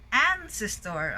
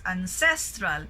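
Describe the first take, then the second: First: "ancestor" with AN punched, then falling; first-syllable stress. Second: "ancestral" with CES stressed; second-syllable stress. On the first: Teacher recalling the earlier word, "ancestor" stressed on AN. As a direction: hit AN at the start of "ancestor". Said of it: "so first syllable". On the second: Teacher pointing out a contrast, "ancestral" stressed on CES. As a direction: lean on the middle syllable of "ancestral". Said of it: "it's in the second syllable". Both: Shown as a demonstration.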